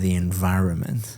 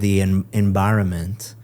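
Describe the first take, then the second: First: The middle consonant sounds like a V. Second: The middle consonant sounds like a B. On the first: The speaker calls it right. "instead of" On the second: The speaker calls it wrong. "you said"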